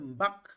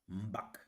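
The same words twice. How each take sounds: First: The word is said on a high tone. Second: The word is said on a low, falling tone. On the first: "Le ton est haut" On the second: "Je fais un abaissement dans la voix"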